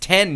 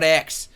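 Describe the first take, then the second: First: It is said as the number ten. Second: It is said as the letter ex. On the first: The speaker calls it right. "It's ten" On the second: The speaker calls it wrong. "not X"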